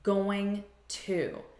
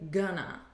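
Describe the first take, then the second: First: It is said as two full words. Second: It is reduced to one blended word. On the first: "a reduction of the words going to" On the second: "And we say gonna"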